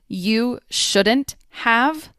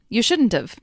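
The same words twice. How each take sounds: First: The h sound in 'have' is pronounced. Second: The h sound in 'have' is dropped.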